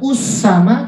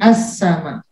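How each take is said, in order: First: The word begins with a u vowel. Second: The word begins with an a vowel. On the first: The speaker calls it wrong. "Tidak us sama" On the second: The speaker calls it right. "tapi as sama"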